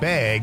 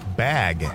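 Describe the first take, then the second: First: The word is said in a Wisconsin accent. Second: The word is said in a standard accent.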